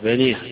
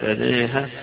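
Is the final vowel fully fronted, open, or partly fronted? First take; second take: fully fronted; partly fronted. First: The final long a leans fully toward e. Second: The final long a leans partly toward e. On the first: "بالإضجاع أو بالإمال يقول بنيها" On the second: "وإما التقليل"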